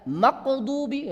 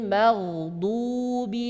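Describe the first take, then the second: First: The consonant is a q sound. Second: The consonant is a flowing throaty gh sound. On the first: The speaker calls it wrong. "sudah jadi qaf dipantulkan lagi, ini salah" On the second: The speaker calls it right. "Gha, tebal, suara berjalan dan enak ya keluarnya"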